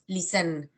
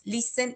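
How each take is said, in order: First: "listen" wrongly stressed on its second syllable. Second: "listen" stressed on its first syllable. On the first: Teacher showing how not to say "listen", final-syllable stress. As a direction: shift the weight onto the last syllable of "listen". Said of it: "y no decimos listen". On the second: Teacher showing where the accent falls in "listen", first-syllable stress. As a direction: hit the opening syllable of "listen". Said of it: "el acento está en la primera sílaba". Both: Shown as a demonstration.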